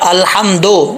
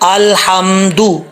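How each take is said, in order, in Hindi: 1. आखिरी अक्षर o स्वर पर खत्म होता है। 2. आखिरी अक्षर u स्वर पर खत्म होता है। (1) "दो नहीं पढ़ना" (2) "दाल पेश दू होता है"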